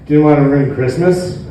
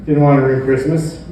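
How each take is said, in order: Both takes have the same delivery.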